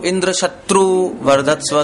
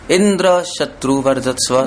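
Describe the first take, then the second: First: The stress is on शत्रु. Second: The stress is on Indra.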